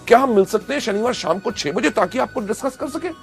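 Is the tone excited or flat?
excited. It is said with excitement and enthusiasm.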